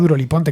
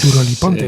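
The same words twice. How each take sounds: First: It is said with a plain Spanish accent. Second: It is said with an English accent.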